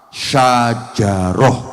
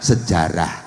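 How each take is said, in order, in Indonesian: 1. Diucapkan dengan bunyi Arab yang asli. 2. Diucapkan dalam bentuk lokal yang disederhanakan. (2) "diambil mudahnya"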